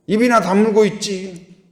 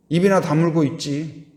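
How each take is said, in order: First: 입이나 punched, higher and louder; emphatic repeat. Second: Said in the usual way. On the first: Shown as a demonstration. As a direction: hammer 입이나 in rebuke. (입이나를 세게 높여 꾸짖듯)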